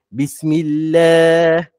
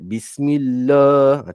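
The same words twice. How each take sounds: First: The 'lah' sound is light and thin. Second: The 'lah' sound is heavy and thick. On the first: The speaker calls it right. "dia kena baca nipis" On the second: The speaker calls it wrong. "tak boleh tebal"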